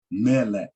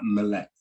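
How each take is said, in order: First: "Melech" with the accent syllable stressed; "Melech" said right, as marked by the accent. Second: "Melech" said wrongly, first vowel reduced to a schwa; the wrong "Melech" with the accent ignored; "Melech" as the mistake to avoid; wrong stress. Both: Shown as a demonstration. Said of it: "not Melech".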